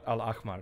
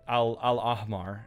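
First: The middle consonant is a raspy throat fricative. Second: The middle consonant is a plain, soft h. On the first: The speaker calls it right. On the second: The speaker calls it wrong.

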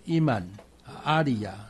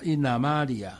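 First: The words are said separately, with a break. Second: The words are joined into one flowing unit. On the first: "一般来讲在别的地方常常就是" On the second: "但是他把它连起来所以才变成"

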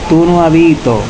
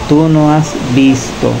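First: The S sounds are dropped. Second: The S sounds are pronounced. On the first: The speaker calls it wrong. "no diga como tú no habito" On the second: The speaker calls it right. "diga tú no has visto"

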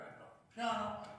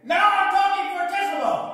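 First: It is spoken softly. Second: It is spoken very loudly.

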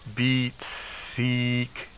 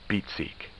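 First: Every sound in both words is stretched out. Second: Every sound in both words is normal length. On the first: "all sounds are prolonged" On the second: "the word is said normally"

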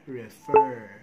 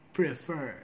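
First: The opening p sound is left out. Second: The word begins with a p sound. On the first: The speaker calls it wrong. "which is wrong" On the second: The speaker calls it right. "Do not forget the first sound"

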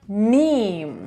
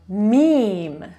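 First: The word is said in an English way. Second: The same.

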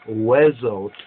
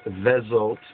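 First: The word begins with a W sound. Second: The word begins with a V sound. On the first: This is the biblical Hebrew pronunciation. The speaker calls it right. "the more proper biblical Hebrew would be Wezot HaBaraka" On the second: The speaker calls it wrong.

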